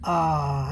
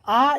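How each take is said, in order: First: The vowel is drawn out for longer. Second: The vowel is held only briefly. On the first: "आ लंबा हो जाएगा" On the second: "अब आ इतना ही है"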